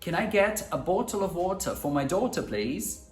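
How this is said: It is said in a British accent. "para os britânicos eu vou dizer algo como, primeiro"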